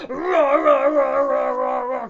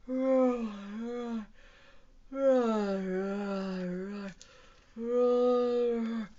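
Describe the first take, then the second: First: Loud, high rapid-fire roars; dinosaur roar. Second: Drawn-out, drowsy dinosaur roars; sleepy roar. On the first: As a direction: roar hard while scrubbing away. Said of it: "we are going to roar". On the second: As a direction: roar sleepily, letting each one sag. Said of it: "Let's roar sleepily". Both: Acted.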